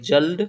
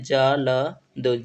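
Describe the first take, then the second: First: Said in the usual way. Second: जल्द broken slowly into ja, la, da; slow dictation of जल्द, each letter-sound separate; sounded out for writing. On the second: Shown as a demonstration. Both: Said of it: "ठीक से लिखते हैं".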